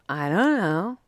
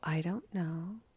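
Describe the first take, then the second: First: It is said in a snarky, dismissive tone. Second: It is said in a soft, gentle tone. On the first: "you can be snarky about it" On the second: "Or you can be gentle"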